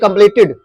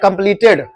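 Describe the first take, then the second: First: The final syllable is said as 'tid'. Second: The final syllable is said as 'ted'. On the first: The speaker calls it right. "Actual में क्या होना चाहिए" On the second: The speaker calls it wrong. "आप इसको हमेशा पढ़ते आ रहे, कंप्लीटेड पढ़ते हो ना"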